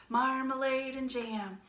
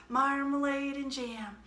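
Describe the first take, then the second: No difference in how they are said.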